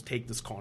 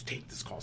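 First: Hushed retold voice. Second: Very soft, low whisper quoting someone; whispered retold order. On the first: Wife hands husband the phone in bed, hushed. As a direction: quote the wife softly, under the breath. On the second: Wife insists to husband in bed, whispering. Wife repeats her demand, hushed.

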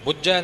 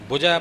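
First: ਬੁਝੈ with a tight, doubled middle consonant, bujjhai; ਬੁਝੈ said stressed, as bujjhai; wrong hard reading. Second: ਬੁਝੈ with a single, light middle consonant, bujhai; ਬੁਝੈ said gently, without doubling; soft reading. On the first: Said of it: "ਨਹੀਂ ਇੱਥੇ ਪੜ ਜਾਣਾ". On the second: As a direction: let the ਝ of ਬੁਝੈ stay soft. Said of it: "ਪਾਠ ਪੋਲਾ ਹੀ ਕਰਨਾ". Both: Shown as a demonstration.

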